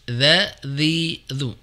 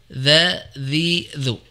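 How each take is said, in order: The two takes are said the same way.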